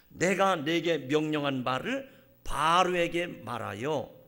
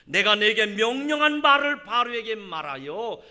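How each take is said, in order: First: It is read slowly, each syllable distinctly. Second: It is read at a normal, flowing pace.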